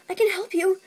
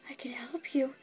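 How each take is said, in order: First: Said in the usual way. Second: Softer, unvoiced whisper of I can help you. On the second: Pony offering help to the clerk, whisper. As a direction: murmur the offer under the breath.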